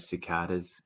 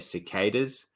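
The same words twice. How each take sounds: First: It is said with an Australian pronunciation. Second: It is said with an American pronunciation. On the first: "but we say cicadas here" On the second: "You guys over there in the States say cicadas"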